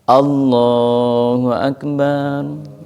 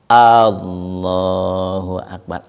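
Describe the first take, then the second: First: The ba syllable is drawn out long. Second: The first vowel A is drawn out long. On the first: "Atau ba-nya yang yang dipanjangkan" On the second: "ada yang A-nya dipanjangkan, itu nggak sah juga"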